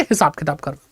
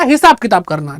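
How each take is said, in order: First: हिसाब किताब करना said again, lower and much softer; quiet repeat. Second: Said in the usual way. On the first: Shown as a demonstration. Teacher softly repeating the definition to students, quiet and lower. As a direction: drop the voice and let the definition sink in. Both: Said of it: "अभी इतना ही समझो".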